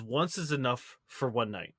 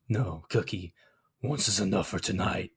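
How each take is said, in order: First: Quiet, low retelling. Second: Sighing. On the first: Retold or imitated. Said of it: "he says". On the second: Acted. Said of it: "he sighs".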